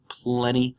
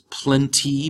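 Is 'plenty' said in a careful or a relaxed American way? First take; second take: relaxed American; careful. First: The word is said in a relaxed American way. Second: The word is said carefully, as written. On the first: "we say often in American English plenty" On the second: "the word here that we see in the sentence is plenty"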